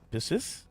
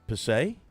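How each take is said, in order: First: The name is said with an English-style ending. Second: The name is said with a French-style ending.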